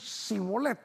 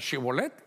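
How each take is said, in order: First: The word begins with a plain s sound. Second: The word begins with a sh sound. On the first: The speaker belongs to the group that could not make the sound. "los otros solo decían Sibolet" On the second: The speaker belongs to the group that could make the sound. "unos decían Shibolet, eso sí podían, porque tenían la H"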